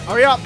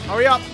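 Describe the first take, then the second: No difference in how they are said.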